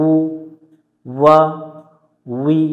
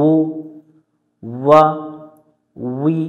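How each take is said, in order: Both takes have the same delivery.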